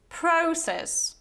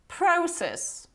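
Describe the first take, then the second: The two takes are said the same way.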